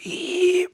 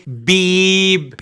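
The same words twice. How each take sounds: First: بيب whispered so the b turns to p; بيب همساً. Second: بيب stretched very slowly with a voiced b; بيب ببطء شديد; drawn-out بيب. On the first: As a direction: breathe بيب, no voice. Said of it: "ما طلعتش معاك بي". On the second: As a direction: hold بيب long and slow. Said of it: "قول إيه". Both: Shown as a demonstration.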